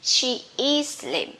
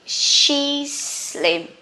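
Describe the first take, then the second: First: She and is are both said in full. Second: She is is contracted to one syllable. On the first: This is the written form. "In writing, you have to write clearly" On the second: This is the spoken form. "in speaking, you can say quickly"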